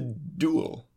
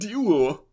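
First: The word is pronounced in the ordinary way. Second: The word is pronounced in an odd, put-on way.

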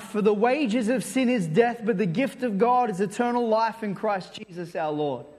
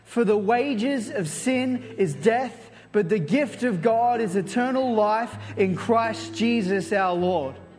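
First: It is read in a calm, plain way. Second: It is read with lively enthusiasm.

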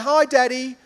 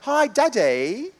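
First: It is said in a plain, normal voice. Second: It is said like a Peppa Pig character.

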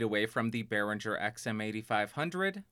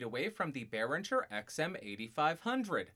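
First: The voice is farther, with more room sound. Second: The voice is distant, with the most room sound. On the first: "about 2 feet away" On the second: "about 4 feet away"

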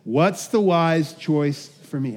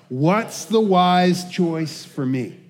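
First: It is said in a calm, plain way. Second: It is said loudly with great energy.

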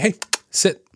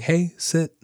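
First: The voice sounds firm and confident. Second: The voice sounds timid and unsure. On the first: The dog is likely to take the command seriously. The speaker calls it right. "There's like some confidence behind that" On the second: The dog is unlikely to take the command seriously. The speaker calls it wrong. "You don't want to be going"

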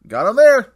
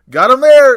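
First: It is said with somewhat less energy. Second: It is said with very high energy.

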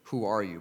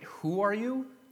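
First: It is asked as a plain question. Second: It is asked with surprised disbelief.

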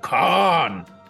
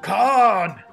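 First: It is shouted as a frustrated cry. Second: It is shouted as a cheerful cheer.

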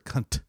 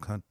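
First: The final T is strongly pronounced. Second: The final T is soft or dropped. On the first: It is meant as an insult. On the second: It is meant affectionately about a friend.

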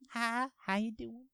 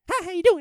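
First: It is said slowly, in a relaxed Texan manner. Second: It is said fast, in a New England manner.

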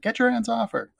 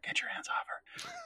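First: It is said more loudly. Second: It is said more quietly.

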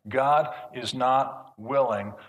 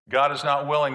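First: It is spoken a little more slowly. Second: It is spoken at a normal pace.

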